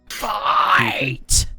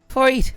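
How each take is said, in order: First: It is said in his ordinary accent. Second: It is said in an Irish accent.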